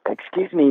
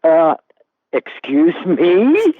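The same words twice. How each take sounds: First: A mock-polite fan, pitch up a little, falling; imitating an eager autograph seeker asking nicely; polite fan request. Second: Slow, louder, higher, rising excuse me; indignant disbelief. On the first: Fan at the urinal politely asking Paul Newman, mock-polite. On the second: Retold or imitated. Paul Newman answering the fan at the urinal, outraged.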